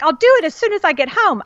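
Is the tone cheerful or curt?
cheerful. It is said in a cheerful, upbeat tone.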